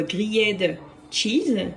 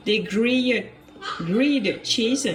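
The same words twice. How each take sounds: First: "grilled cheese" slowly, in a heavy French accent; drawn-out French-accented "gri-yed tcheese". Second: Careful, slow attempt at English "grilled cheese"; drawn-out English attempt from a French speaker; attempted English accent. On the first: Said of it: "en accent français, ça dit plutôt". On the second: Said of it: "Excusez mon accent". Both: Shown as a demonstration.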